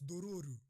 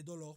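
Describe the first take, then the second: First: The name ends with an added RU syllable. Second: The name ends with a final L sound. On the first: This is how the name is said in Japanese. "en japonais, ça se prononce dororu" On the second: This is the reading the speaker first assumed. "je pensais que c'était dolor"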